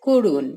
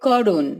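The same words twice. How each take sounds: First: করুণ said as korun, closed o first vowel; spoken pronunciation. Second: করুণ read as spelled, open aw first vowel; written spelling. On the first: Teacher showing how করুণ is actually said, closed o. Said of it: "আমরা বলি". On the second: Teacher reading করুণ as it is written, open vowel. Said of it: "লেখা থাকে". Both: Shown as a demonstration.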